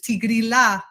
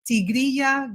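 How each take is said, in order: First: It is said with an Italian accent. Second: It is said with a Spanish accent. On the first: "they pronounce it the Italian way, ... not the ya" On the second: "the name is actually in Spanish"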